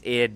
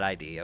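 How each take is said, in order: First: It is said as one short word. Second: It is said as two separate letters. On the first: The speaker calls it right. "It's id" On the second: The speaker calls it wrong. "not I D"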